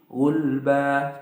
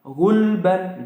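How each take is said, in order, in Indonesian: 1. Kata ini berakhir dengan vokal a panjang. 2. Kata ini berakhir dengan bunyi n.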